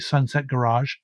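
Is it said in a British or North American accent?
North American. It is said with a North American pronunciation.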